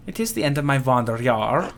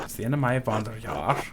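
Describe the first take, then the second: First: "is" stressed, rising; "It is" said full with "is" stressed. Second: Said in the usual way. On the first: Shown as a demonstration. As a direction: lean on the word "is" in "It is the end".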